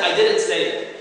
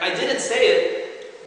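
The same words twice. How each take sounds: First: Said in the usual way. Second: "I didn't say it" slow, with "say" higher and falling; slow stressed quote. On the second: Shown as a demonstration. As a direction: drag out "I didn't say it", hitting "say". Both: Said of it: "doesn't mean that I".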